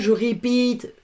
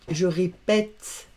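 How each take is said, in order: First: The vowel in the last syllable is closed. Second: The vowel in the last syllable is open. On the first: The speaker calls it wrong. "On ne dit pas" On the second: The speaker calls it right. "on dit ... j'ai un accent grave est"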